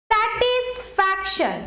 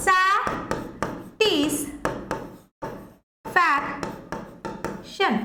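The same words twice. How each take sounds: First: Said slowly and clearly; slow clear model word. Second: Very slow, split into syllables. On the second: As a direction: stretch it out syllable by syllable. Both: Shown as a demonstration. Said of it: "তাহলে দেখো".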